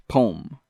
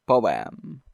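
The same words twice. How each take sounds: First: "Poem" squashed into one syllable, pome; "Poem" as pome, no second vowel. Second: "Poem" pronounced poh-EM in two beats; "Poem" broken into poh and em; two-syllable poem. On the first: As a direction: say "Poem" to rhyme with home. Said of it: "the pronunciation is poem". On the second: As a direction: sound both vowels in "Poem". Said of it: "starts with a vowel". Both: Shown as a demonstration.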